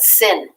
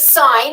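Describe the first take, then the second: First: The word rhymes with pin. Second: The word rhymes with line. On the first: The speaker calls it wrong. "do not expose your ignorance in math and call that sin. Do not say that. That's dumb" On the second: The speaker calls it right. "This is sine"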